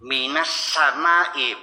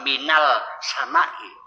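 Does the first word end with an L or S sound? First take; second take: S; L. First: The first word ends with an S sound. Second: The first word ends with an L sound. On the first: The speaker calls it right. "minas samai bukan minal samai" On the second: The speaker calls it wrong. "bukan minal samai"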